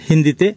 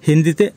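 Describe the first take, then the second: Both takes have the same delivery.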